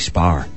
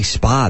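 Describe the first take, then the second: First: The word ends with an R sound. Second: The word ends with a plain vowel. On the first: This is how the other group says it. "They'll put the R at the end of stuff" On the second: This is how the speaker's own group says it. "they don't say spa"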